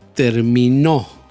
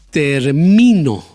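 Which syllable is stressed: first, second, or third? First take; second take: third; second. First: The stress is on the third syllable. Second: The stress is on the second syllable. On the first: "Ahí puse el golpe de voz en la tercera sílaba" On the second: "Ahí puse el golpe de voz en la segunda sílaba"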